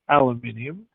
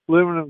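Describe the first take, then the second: First: It is said with five syllables, al-u-min-i-um. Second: It is said with four syllables, al-u-mi-num.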